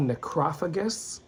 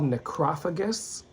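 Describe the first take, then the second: First: The word is pronounced the English way. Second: The word is pronounced the English way.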